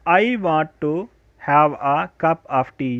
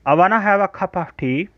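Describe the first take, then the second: First: 'Want to' is said as two full words. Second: 'Want to' is merged into one word, 'wanna'. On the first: The speaker calls it wrong. "ये हमारा पुराना तरीका था, लेकिन अब हम इसे ऐसे नहीं पढ़ेंगे" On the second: The speaker calls it right. "को हम पढ़ेंगे आई वाना"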